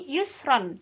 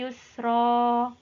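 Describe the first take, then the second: First: The word ends with an n sound. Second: The word ends with a long vowel. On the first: This is the form as written, with nunation. "Tulisannya kan yusron" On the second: This is the form read when pausing at the end. "tapi karena wakof maka dibaca"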